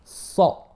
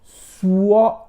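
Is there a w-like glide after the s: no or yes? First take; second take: no; yes. First: No w-like glide follows the s sound. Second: A w-like glide follows the s sound. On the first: The speaker calls it right. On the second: The speaker calls it wrong.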